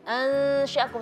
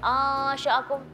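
First: The lips close and the sound hums through the nose. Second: The mouth is open and the nasal hum disappears. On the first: The speaker calls it right. "supaya udara mengalir ke rongga hidung" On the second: The speaker calls it wrong. "dengungnya hilang"

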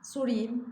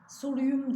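First: The vowel before the ending is a. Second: The vowel before the ending is u. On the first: The speaker calls it right. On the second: The speaker calls it wrong.

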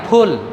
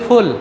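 First: The word starts with an aspirated p sound. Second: The word starts with an f sound. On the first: The speaker calls it right. "এটা শুদ্ধ উচ্চারণ" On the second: The speaker calls it wrong. "আমরা বলি ফুল না"

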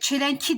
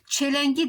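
First: The word keeps a hard k before the ending. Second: The word has a soft g before the ending. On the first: The speaker calls it wrong. "çelenki demem zordur" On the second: The speaker calls it right. "Burada da K, G'ye dönüşmüş"

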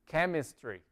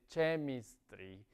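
First: It begins with a 'k' sound as in kit. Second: It begins with a 'ch' sound as in church. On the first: The speaker calls it right. "como con la K" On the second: The speaker calls it wrong. "No se dice chemistry"

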